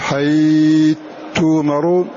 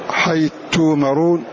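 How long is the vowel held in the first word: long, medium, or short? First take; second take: medium; short. First: The vowel before the merged letter is held medium. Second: The vowel before the merged letter is held short. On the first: "أو تقول" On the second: "جاز فيه القصر والتوسط والإشباع"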